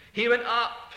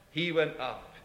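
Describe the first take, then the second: First: Went lifted with a brighter, stronger ring; triumphant proclamation, Went rising. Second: Said in the usual way. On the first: Shown as a demonstration. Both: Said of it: "in a triumphant way".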